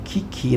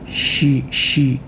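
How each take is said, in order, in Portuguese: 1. A palavra começa com o som de 'k'. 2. A palavra começa com o som de 'sh'. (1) "a pronúncia é ki" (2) "acho que a pronúncia não é essa"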